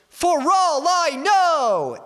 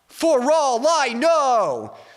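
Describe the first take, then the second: First: It is shouted in a middle register. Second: It is shouted in a low register. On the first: "more like a mid-range" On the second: "And then a lower one"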